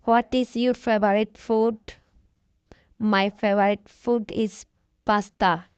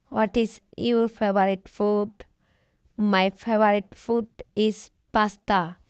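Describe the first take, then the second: No difference in how they are said.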